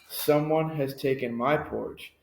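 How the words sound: It is said in a medium-sized voice.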